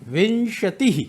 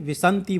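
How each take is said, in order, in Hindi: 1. बीच का व्यंजन 'sh' ध्वनि है। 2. बीच का व्यंजन सादा 's' ध्वनि है।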